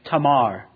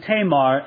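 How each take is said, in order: First: The vowels sound like 'ah' as in father. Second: The vowels sound like 'ay' as in English. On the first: The speaker calls it right. "You'd probably say her name Tamar. A's are always pronounced, never A in most other languages, but ah" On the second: The speaker calls it wrong. "I've been saying Tamar, and I probably will. It's undoubtedly incorrect pronunciation"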